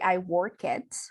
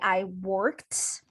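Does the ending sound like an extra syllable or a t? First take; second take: extra syllable; t. First: The ending is said as an extra syllable. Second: The ending sounds like a t, no extra syllable. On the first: The speaker calls it wrong. "we don't say" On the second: The speaker calls it right. "The first one is like a t"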